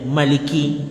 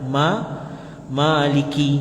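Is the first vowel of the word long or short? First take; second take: short; long. First: The first vowel is kept short. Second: The first vowel is drawn out long. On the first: It means owning the object with all its attributes. "boleh dibaca pendek saja" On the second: It means owning the object itself. "Boleh dibaca panjang"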